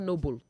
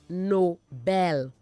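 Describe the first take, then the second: First: The stress is on the first syllable. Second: The stress is on the second syllable. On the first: The speaker calls it wrong. "not Noble" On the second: The speaker calls it right. "Nobel, not Noble"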